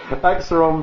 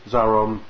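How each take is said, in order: First: The name begins with an aks sound. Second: The name begins with a z sound. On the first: The speaker calls it right. "I too pronounce it Axeron rather than Zaron" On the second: The speaker calls it wrong. "I said Zaron"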